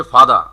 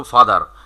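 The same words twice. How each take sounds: First: British "ফাদার" with the final r dropped; British pronunciation. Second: American "ফাদার" with the final r sounded; teacher shows students the American r, final r kept in "ফাদার"; American pronunciation. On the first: Teacher comparing accents for class, r-less British "ফাদার". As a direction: say "ফাদার" ending on an open "aa", no r. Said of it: "শেষে র নেই আর ব্রিটিশে". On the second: Teacher comparing accents for class, r-ful American "ফাদার". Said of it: "রটা থাকে". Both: Shown as a demonstration.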